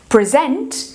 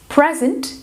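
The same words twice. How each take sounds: First: The stress is on the second syllable. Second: The stress is on the first syllable. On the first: It means to present something. The speaker calls it wrong. "se você fosse falar present, present é apresentar" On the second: It means a gift. The speaker calls it right. "Present é presente"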